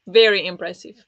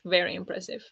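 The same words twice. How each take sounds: First: First take louder and fuller; really mean the praise; a firm, impressed compliment; emphatic praise. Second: A softer repeat of the praise; a quiet afterthought compliment; soft echo. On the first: Praising a fast reader. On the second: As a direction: let it fall away, almost to yourself. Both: Real, not acted.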